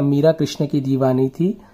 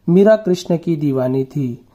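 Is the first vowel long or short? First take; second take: long; short. First: The first vowel is long. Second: The first vowel is short. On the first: The speaker calls it right. "यहाँ पर होगा" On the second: The speaker calls it wrong. "छोटी की मात्रा में अगर करते हैं तो ये इस प्रकार से आएगा"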